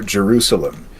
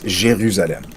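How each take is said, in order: First: It is said with an English pronunciation. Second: It is said with a French pronunciation.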